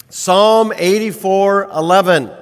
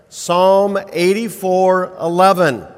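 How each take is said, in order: The two takes are said the same way.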